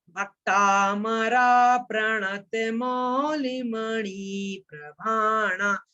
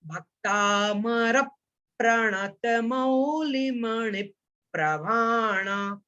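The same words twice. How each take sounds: First: Slow chanted भक्तामरा with a long final a; wrong chant pronunciation. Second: Slow chanted Bhaktamar with no final a; correct chant pronunciation. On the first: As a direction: chant भक्तामरा प्रणत Mauli slowly, adding an a after Bhaktamar. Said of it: "ये बिल्कुल गलत है". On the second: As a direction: chant Bhaktamar ending in a short a, slow and measured. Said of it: "भक्तामरा नहीं बोलना है". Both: Shown as a demonstration.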